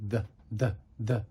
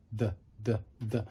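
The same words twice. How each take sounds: The two takes are said the same way.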